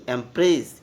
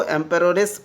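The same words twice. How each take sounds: First: एम्प्रेस said in two syllables, em-press; correct pronunciation. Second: एम्पररेस with an extra syllable, em-per-or-es; mock the student's wrong एम्पररेस; wrong pronunciation. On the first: Teacher correcting the class to एम्प्रेस. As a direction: give the right एम्प्रेस crisply. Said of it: "नहीं, एम्प्रेस". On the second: Teacher showing the students' mistake एम्पररेस. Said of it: "बहुत student लिखता है एम्पररेस". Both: Shown as a demonstration.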